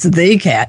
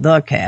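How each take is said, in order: First: The word 'the' carries strong emphasis. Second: The word 'the' is said weakly. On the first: It is the one and only cat. The speaker calls it right. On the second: It is just an ordinary cat. The speaker calls it wrong.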